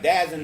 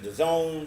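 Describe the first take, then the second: First: It is said as one word, 'dazzen'. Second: It sounds like the two words 'the zone'. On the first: "some people say it looks like Dazn" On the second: "some people say it's the Zone"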